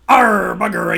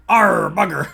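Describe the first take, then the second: First: Pirate grumble breaking into laughter, louder; laughing pirate curse. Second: Hammed-up pirate grumble; pirate curse. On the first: Acted. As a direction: curse like a pirate while cracking up. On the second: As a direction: growl it like a vexed sea dog. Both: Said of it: "I was too piratey".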